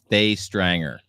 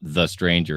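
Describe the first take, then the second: First: The first word is said as a long 'thay'. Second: The first word is said as a short 'thuh'. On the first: The speaker calls it right. "it's Thay Thay Strang Thrace Thay Stranger" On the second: The speaker calls it wrong. "it's not"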